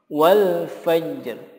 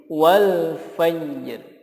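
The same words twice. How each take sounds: No difference in how they are said.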